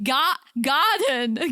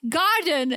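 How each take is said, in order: First: Slow British "garden", laughing; British accent. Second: Said in the usual way. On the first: Retold or imitated. Retelling the pizza order, imitating herself in a British accent. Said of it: "started doing British accent". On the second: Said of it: "And I started doing British accent".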